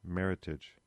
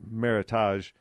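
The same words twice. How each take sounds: First: The ending sounds like English 'heritage'. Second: The ending sounds French, like 'tahzh'. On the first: The speaker calls it right. "it's merit and heritage" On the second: The speaker calls it wrong. "So it's not Meritage, which often gets used with that pronunciation. It's not a French term"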